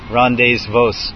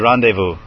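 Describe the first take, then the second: First: It is pronounced letter by letter as spelled. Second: It is pronounced the French way. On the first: The speaker calls it wrong. "You don't say rendezvous" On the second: The speaker calls it right. "but you say rendezvous. It's French"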